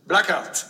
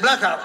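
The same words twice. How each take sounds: First: Said in the usual way. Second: Louder, blunt, with a laugh breaking in; emphatic Greek owner. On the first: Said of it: "And he says". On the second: Retold or imitated. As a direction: punch the word Blackout as the final verdict. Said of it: "he said".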